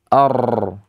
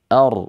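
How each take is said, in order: First: The r is trilled many times. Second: The r is trilled only briefly. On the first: The speaker calls it wrong. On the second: The speaker calls it right. "Begitu saja"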